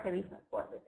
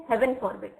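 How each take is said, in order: First: HEAVY ending in ee, no n; mistaken wording. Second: HEAVEN with a clear final n; corrected wording. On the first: Teacher quoting the misreading to reject it, HEAVY without n. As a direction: say "heavy" with the n missing. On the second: Teacher correcting a misread phrase, clearly enunciated HEAVEN. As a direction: say "Heaven" ending in n, not "heavy". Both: Shown as a demonstration. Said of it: "Not heavy for-, forbid".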